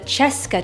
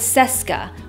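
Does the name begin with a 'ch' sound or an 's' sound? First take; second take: ch; s. First: The name begins with a 'ch' sound. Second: The name begins with an 's' sound. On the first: The speaker calls it right. "I think that this chair is actually pronounced the Cheska chair" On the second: The speaker calls it wrong. "and not the Seska, which is how everyone pronounces it now"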